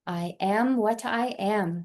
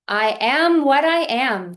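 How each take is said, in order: First: It is spoken softly in a normal voice. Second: It is spoken aloud at full volume. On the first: "a bit softer in a speaking voice" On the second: "repeat aloud"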